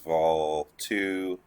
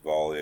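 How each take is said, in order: First: The name ends with a 'two' sound. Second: The name ends with a 'lee' sound. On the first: The speaker calls it wrong. "I know it says Vol two" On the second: The speaker calls it right. "it's actually pronounced Volley according to everyone that lives there"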